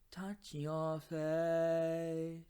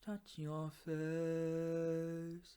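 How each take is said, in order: First: It has an open, balanced, brighter vowel. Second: It has a rounder, darker, covered vowel.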